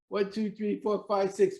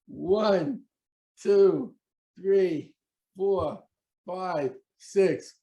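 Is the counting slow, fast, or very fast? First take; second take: very fast; slow. First: The counting is as fast as possible. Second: The counting is at an ordinary, slower pace.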